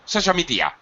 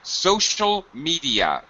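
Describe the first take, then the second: First: The phrase is said quickly, run together. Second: The phrase is said slowly and deliberately. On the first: The speaker calls it wrong. "you say social media" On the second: The speaker calls it right. "I slow down when I have content words together"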